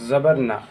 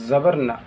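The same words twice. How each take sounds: No difference in how they are said.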